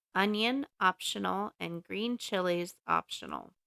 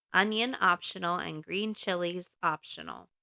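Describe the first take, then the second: No difference in how they are said.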